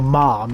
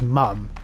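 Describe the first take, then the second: First: The vowel has an American sound. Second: The vowel has an English sound. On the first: "He doesn't go mom" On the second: "he says mum like an English person"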